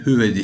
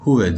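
First: The first vowel is a front rounded ü. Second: The first vowel is a back rounded u. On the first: The speaker calls it wrong. "üzümün üsüyle değil, hüvedi şeklinde değil" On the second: The speaker calls it right. "huve diye söylüyoruz. Umutun usuyla söylüyoruz"

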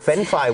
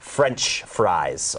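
First: It sounds like fen fry, without ch or s. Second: It ends clearly with ch and final s. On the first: Listeners abroad would not understand it. The speaker calls it wrong. "ก็ไม่ผิดที่ไทยนะครับไปสั่งเฟนฟรายที่ร้านอาหารไทย" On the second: Listeners abroad would clearly understand it. The speaker calls it right. "ถ้าจะพูดชัดวูดนะครับให้เขาเข้าใจอย่างกระจ่างนะครับ"

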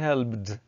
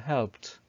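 First: The ending is said as an extra syllable. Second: The ending is said as a short t sound. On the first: The speaker calls it wrong. "don't say helped" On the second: The speaker calls it right. "say helped"

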